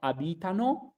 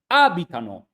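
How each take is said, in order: First: The stress falls on a later syllable. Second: The stress falls on the first syllable. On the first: The speaker calls it wrong. "So it's not abitano" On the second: The speaker calls it right. "you always put the accent in the very beginning, in the first syllables"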